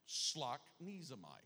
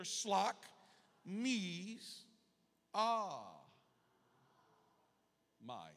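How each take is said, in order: First: "Slock. Knees. Am I." run together as one word; joined-up pronunciation. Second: "Slock. Knees. Ah. My." with long pauses between; syllable-by-syllable modelling. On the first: Preacher shows congregation it's simple, blended pronunciation. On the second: Preacher has congregation say it together, slow separated syllables. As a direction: sound out each piece, "Slock", "Knees", "Ah", "My". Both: Shown as a demonstration. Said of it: "Say it together".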